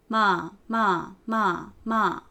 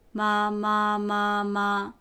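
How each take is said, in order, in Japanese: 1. やや高いところから下がる。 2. 音は高くて平ら。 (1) "四声、" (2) "一声、"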